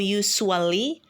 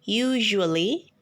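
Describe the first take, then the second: First: The middle consonant is not a zh sound. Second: The middle consonant is a zh sound. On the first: The speaker calls it wrong. "atau usually" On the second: The speaker calls it right. "tetapi usually"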